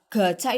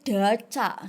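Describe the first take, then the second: First: The word begins with a g sound. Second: The word begins with a d sound. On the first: The speaker calls it right. "misalnya baca gaca" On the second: The speaker calls it wrong. "itu daca, samar"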